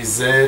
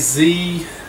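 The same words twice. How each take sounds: First: The letter is said as zed. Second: The letter is said as zee.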